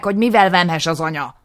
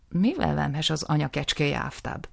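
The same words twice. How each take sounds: First: Loud, high, pressing; angry demand. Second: Said in the usual way. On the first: Acted. Nisim urging the justice, loud and high. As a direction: push the justice to ask.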